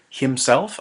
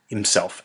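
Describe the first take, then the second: First: The h sound is clearly pronounced. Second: The h sound is dropped and quick. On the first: "I don't say himself" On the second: "It's really quick, like no H sound"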